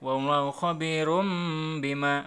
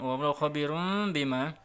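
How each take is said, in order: First: The word ends in an m sound before bima. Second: The word ends in an n sound before bima. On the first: "ada yang langsung ke mim" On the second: "ada riwayat lain yang mengatakan boleh dibaca nun juga"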